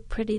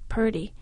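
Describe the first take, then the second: First: The word is said in its standard form, pretty. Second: The word is said in a relaxed form, purdy. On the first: "didn't say pretty" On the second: "they said purdy"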